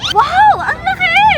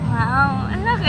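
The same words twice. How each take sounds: First: It is said in a happy tone. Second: It is said in a flirty tone.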